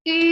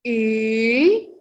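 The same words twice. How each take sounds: First: The pitch stays level and flat. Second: The pitch dips and curves back up. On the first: "Kalau ada garis datarnya berarti kita harus baca I" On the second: "Kalau untuk nada ketiga"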